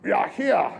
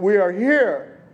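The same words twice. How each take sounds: First: It is said in a put-on German accent. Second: It is said in his plain accent.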